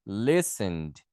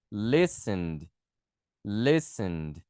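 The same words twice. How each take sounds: First: Listened with the e nearly dropped, lesnd; reduced e. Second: Listened said lesend, ending in d; model pronunciation. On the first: Teacher corrects Listened, dropping the e sound. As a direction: squeeze Listened into lesnd, shorter middle. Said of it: "Só diminuir um pouquinho essa letrinha aqui". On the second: Teacher models Listened for the class, final d sound. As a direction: pronounce Listened slowly, final d clear. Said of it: "você vai pronunciar com E D também". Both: Shown as a demonstration.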